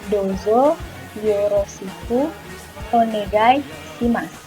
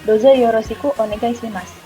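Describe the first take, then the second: First: It is said slowly, word by word. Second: It is said quickly, words running together.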